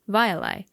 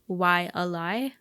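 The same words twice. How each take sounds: First: The word begins with a V sound. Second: The word begins with a W sound. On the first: This is the traditionally correct pronunciation. "the letter W is supposed to be pronounced as a V sound" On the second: This is how locals commonly say it. "Locals say Waialae"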